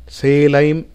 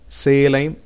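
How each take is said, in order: No difference in how they are said.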